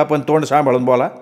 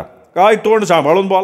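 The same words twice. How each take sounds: First: Said in the usual way. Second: High, mocking echo of his words; angry mocking echo. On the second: Shopkeeper mocking Datta's warning, angry echo. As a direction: throw his words back at him angrily. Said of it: "शेठ त्याच्यावर तावदारला".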